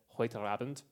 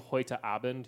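First: An R sound links the two words. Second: A glottal stop separates the two words. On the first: "he puts that little R in between" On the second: "instead of saying heute Abend"

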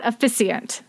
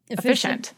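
First: The middle consonant is an s sound. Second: The middle consonant is an sh sound. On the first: The speaker calls it wrong. "It is definitely not a S sound in there" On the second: The speaker calls it right. "we're both going to keep saying efficient"

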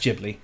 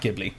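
First: The word begins with a J sound. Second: The word begins with a hard G sound. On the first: The speaker calls it right. "it's pronounced Ghibli" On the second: The speaker calls it wrong. "not Ghibli"

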